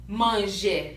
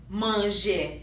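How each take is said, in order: The two takes are said the same way.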